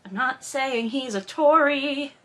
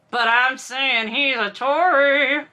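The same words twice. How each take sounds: First: Slow, drawn-out "I'm not saying he's a Tory"; coy disclaimer. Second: Slow, stretched "I'm saying he's a Tory", pushed harder; pointed insinuation. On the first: Host hinting at Maxim's politics, coy disclaimer. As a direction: stretch out "Tory" as a careful disclaimer. Hint set against open claim. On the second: Host calling Maxim a Tory, pointed insinuation. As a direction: lean heavily and slowly on "Tory". Insinuation turned into open claim. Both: Shown as a demonstration.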